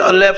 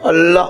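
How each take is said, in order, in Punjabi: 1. ਸ਼ਬਦ ਦਾ ਅੰਤ ਐ ਸਵਰ ਨਾਲ ਹੁੰਦਾ ਹੈ। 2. ਸ਼ਬਦ ਦਾ ਅੰਤ ਲੰਮੇ ਆ ਸਵਰ ਨਾਲ ਹੁੰਦਾ ਹੈ। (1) "ਜੇ ਸਿਆਰੀ ਲੱਗੇ ਹੋਵੇ ਤੁਸੀਂ ਅਲੈ ਪੜੋਗੇ" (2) "ਉਹ ਕੀ ਕਹਿਣਗੇ? ਅੱਲਾ"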